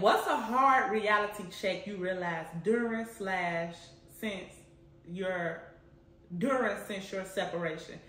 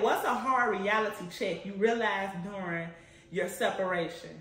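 First: First read, tripping over words; halting first read. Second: Said in the usual way. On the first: Real, not acted. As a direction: read it haltingly, losing the place. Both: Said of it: "Let me repeat it".

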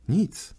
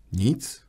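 First: "Nic." jumps high, sudden and bare; young man answers Holmes with a high "Nic."; sharp high nic. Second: Said in the usual way. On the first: Acted. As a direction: fling out "Nic." high in disbelief. Hopeless young man repeats answer.

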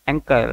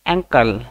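First: Said in the usual way. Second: एंकल said slowly and clearly as ANK-əl; model pronunciation. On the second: Shown as a demonstration. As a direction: model the word एंकल for students to repeat. (शब्द एंकल का स्पष्ट उच्चारण) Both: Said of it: "टखने को हम लोग अंग्रेजी में कैसे बोलेंगे?".

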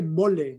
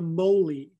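First: Said in the usual way. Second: "mole" as American MOH-lee; anglicized pronunciation. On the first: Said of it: "Se dice mole". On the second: Shown as a demonstration. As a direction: say "mole" with gliding o and final ee. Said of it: "no mole".

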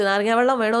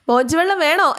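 First: Said in the usual way. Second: Teasing offer. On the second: Acted. Vikram teasing Veda mockingly.

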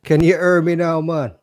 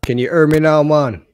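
First: Hammed-up Jamaican accent, loud and high; mock Jamaican accent. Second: Louder and higher, hammed-up test call; loud mic check. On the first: Streamer teasing his guest in a mock Jamaican accent. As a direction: redo the mic check as a Jamaican caricature. Mocks guest again, then "Irie, man. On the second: Streamer mocking his guest's broken mic check, loud and high.

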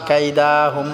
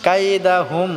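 First: কাইদাহুম with the "da" dragged long; mistaken elongation. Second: কাইদাহুম with a brief, unstretched "da"; short da. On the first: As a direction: stretch the middle "daa" in কাইদাহুম. (কাইদাহুম-এ দা ভুল করে টেনে) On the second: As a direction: keep the middle of কাইদাহুম short. (কাইদাহুম-এ দা না টেনে) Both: Shown as a demonstration. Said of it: "কাইদাহুম হবে না".

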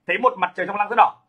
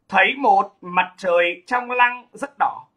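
First: Said in the usual way. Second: Very slow, drawn-out poetry line; slow verse recitation. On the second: Shown as a demonstration. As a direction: recite it slowly, stretching the words. Récite le vers, puis le redit.

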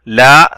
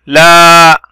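First: Said in the usual way. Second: "لا" with the aa held long, louder; long vowel. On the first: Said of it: "لام فتحة". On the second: Shown as a demonstration. Teacher showing madd with alif, drawn-out "لا". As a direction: sustain the aa of "لا" on a level note. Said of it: "صوت طويل".

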